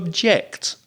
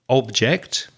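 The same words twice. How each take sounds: First: The stress is on the second syllable. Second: The stress is on the first syllable. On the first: It means to be against something. "the verb to object" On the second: It names a thing. "the noun, the stress on the first syllable"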